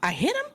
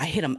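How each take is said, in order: First: It is said as a question, rising. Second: It is said as a flat statement, falling.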